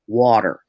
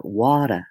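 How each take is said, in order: First: "water" with a strong hard R at the end, wɔtər; Texas hard R. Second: "water" with the R melted away, wɔtə; deep South dropped R. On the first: Narrator shows the Texas hard R in "water". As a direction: say "water" Texas-style, pressing on the final R. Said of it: "there's usually a hard R". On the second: Narrator contrasts a deep South "water" with no R. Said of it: "the R just kind of like butter, it just kind of disappears". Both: Shown as a demonstration.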